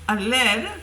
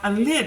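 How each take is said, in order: First: The word has a long ee vowel. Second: The word has a short i vowel. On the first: The speaker calls it wrong. "I didn't say it properly" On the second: The speaker calls it right. "the word is lid"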